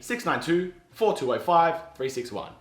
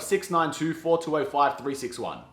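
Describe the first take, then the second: First: The digits are grouped in chunks with pauses. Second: The digits run together without chunk pauses. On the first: The number is easier to remember. The speaker calls it right. "it's easier to remember" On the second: The number is harder to remember. The speaker calls it wrong. "instead of"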